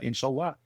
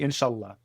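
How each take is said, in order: First: The stress is on the last syllable. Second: The stress is on the middle syllable. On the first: The speaker calls it wrong. "less emphasis on the last syllable. People always want to because they hear Allah" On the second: The speaker calls it right. "It's actually inshallah. It's in the middle"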